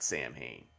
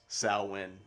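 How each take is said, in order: First: The word is said with an m sound. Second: The word is said without an m sound. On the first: The speaker calls it wrong. "not Sam Hain" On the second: The speaker calls it right. "real pronunciation is Sal Wynn"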